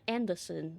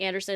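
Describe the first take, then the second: First: The second syllable sounds British. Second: The name is said in an American accent. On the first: "a British accent on like the the second syllable" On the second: "instead of saying Anderson"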